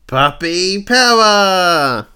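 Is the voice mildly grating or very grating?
mildly grating. The voice is only mildly harsh. The speaker calls it wrong. "Except in his voice, more like"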